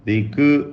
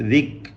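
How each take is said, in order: First: The k is released with a short vowel. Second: The k is held with no vowel after it. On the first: The speaker calls it wrong. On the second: The speaker calls it right.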